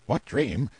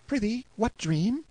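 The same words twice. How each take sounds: First: Said in the usual way. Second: Much higher, youthful voice asking innocently; a high-voiced page boy, puzzled. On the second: A narrator's reading. Clarence questions the narrator's dream.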